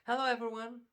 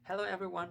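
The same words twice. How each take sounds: First: It is said with high, enthusiastic energy. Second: It is said with calmer, lower energy.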